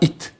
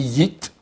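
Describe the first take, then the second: First: The word starts directly with a vowel. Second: The word starts with a y sound. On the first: The speaker calls it wrong. "pas It" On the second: The speaker calls it right. "mais Yit"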